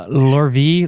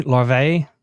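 First: Said in the usual way. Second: "larvae" stretched to "lar-vay", a weak French accent; half-hearted French accent on "larvae", ending in "vay"; French accent attempt. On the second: Shown as a demonstration. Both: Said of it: "say larvae and a little bit slower in a French accent".

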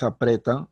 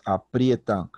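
First: "apretan" with a single E, rising at the end; plain E. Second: "aprietan" with IE glide, falling at the end; IE diphthong. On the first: Teacher rejecting a wrong form, "apretan" with plain E. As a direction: say "apretan" without an I glide. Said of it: "No es apretan". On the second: Teacher giving the correct form, "aprietan" with clear IE. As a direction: put an I glide before the E in "aprietan". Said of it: "sino es aprietan". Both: Shown as a demonstration.

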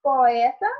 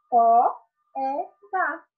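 First: Said in the usual way. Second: "po, é, tá" split into three beats; syllable by syllable. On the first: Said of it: "duas vogais pronunciadas em sílabas separadas". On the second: Shown as a demonstration. Teacher recapping hiatus, syllable by syllable. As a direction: separate "po", "é" and "tá" clearly. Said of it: "pronunciadas em sílabas separadas".

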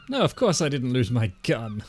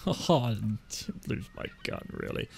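First: Breezy denial, mildly overdone; lying as truth. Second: Soft, slow, trailing-off lie; half-hearted denial. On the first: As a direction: deny it like it's the truth. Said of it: "Just say it like it's the truth". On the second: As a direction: let the denial shrink away quietly. Second, half-hearted lie about gun. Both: Acted.

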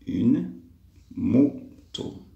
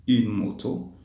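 First: "moto" split into "mo", pause, "to"; syllable demonstration. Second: Said in the usual way. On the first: Shown as a demonstration. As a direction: pause after "Une", then space out "moto". Teacher splits word for syllables. ("moto" découpé syllabe par syllabe)

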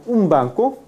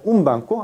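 First: "un banco" with the n of un closed to m; assimilated bilabial nasal. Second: "un banco" keeping a clear n before the b; unassimilated n. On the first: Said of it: "no como un banco". ("un banco" con la n de un pronunciada como m) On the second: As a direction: say "un banco" with tongue-tip n in un, not m. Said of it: "sino como un banco". ("un banco" con n clara antes de la b) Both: Shown as a demonstration.

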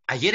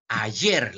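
First: Said in the usual way. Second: "Ayer" with the force on final "yer"; stress on last syllable. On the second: Shown as a demonstration. Teacher showing where the accent falls, "Ayer" stressed on "yer". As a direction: lean on "yer" in "Ayer", pitch lower. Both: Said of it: "la mayor fuerza voz está en yer".

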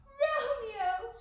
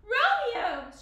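First: High, loud, horrified cry; gasped in horror. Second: High, very loud call; crying out. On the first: Juliet realizing Romeo took poison, gasped in horror. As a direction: let the name burst out in shock. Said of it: "she gasped in horror". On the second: Juliet finding Romeo lying beside her, crying out. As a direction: cry the name out in alarm. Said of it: "she cried". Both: A narrator's reading.

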